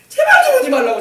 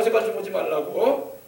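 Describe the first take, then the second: First: High, loud shout to drive him off; shrill shout. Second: Said in the usual way. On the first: Acted. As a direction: yell it, shooing him away. Rahab driving Salmon away.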